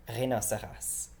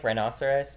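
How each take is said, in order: First: Rhinoceros with French vowels, ree-no-say-ross; French accent. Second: Said in the usual way. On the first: Shown as a demonstration. Teacher contrasting English with French Rhinoceros, French accent. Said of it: "with that accent right there". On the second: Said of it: "but with that accent right there".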